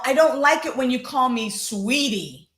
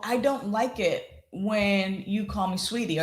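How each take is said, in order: First: The voice sounds harsh and angry. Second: The voice sounds calm and controlled. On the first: The speaker is venting frustration. "some might call aggressive or harsh, or you can hear the anger" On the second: The speaker is aiming for a good outcome. "thinking about the outcome and then adjusting"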